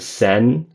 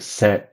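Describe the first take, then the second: First: The syllable ends openly on the N. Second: The syllable ends with a sudden glottal stop. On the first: The speaker calls it wrong. "I'm not doing sen" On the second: The speaker calls it right. "I'm doing scent"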